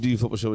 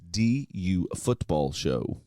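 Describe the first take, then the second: First: The name is said quickly, running together. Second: The name is said slowly and clearly. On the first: The speaker calls it wrong. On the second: The speaker calls it right.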